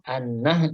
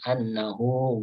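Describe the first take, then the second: First: The word ends on a consonant, with no vowel. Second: The word ends with an added final vowel. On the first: The speaker calls it right. "diwaqaf an-nah itu kan nggak ada nggak ada panjangnya kan" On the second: The speaker calls it wrong. "bukan an-nahu"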